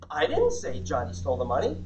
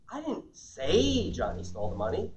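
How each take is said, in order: First: The word "I" is stressed. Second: The word "say" is stressed. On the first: Someone else said it. "implying, you know, someone else might have said it" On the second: It was implied but not said. "meaning I may have implied it, but I didn't say it"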